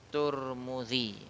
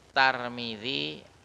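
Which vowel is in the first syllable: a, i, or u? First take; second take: u; a. First: The first syllable has the vowel u. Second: The first syllable has the vowel a. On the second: "Tulisannya sama, cuma beda barisnya aja"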